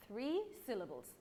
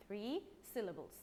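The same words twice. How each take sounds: The two takes are said the same way.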